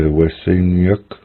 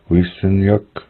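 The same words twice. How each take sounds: First: "we sin yuk" with "we" opened to "weh"; "we sin yuk", short eh in the first beat; dialect variant. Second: "we sin yuk" with "we" as a long "wee"; "we sin yuk", ee vowel up front; dialect variant. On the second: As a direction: say the first syllable of "we sin yuk" as "wees". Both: Shown as a demonstration. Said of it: "Some will say".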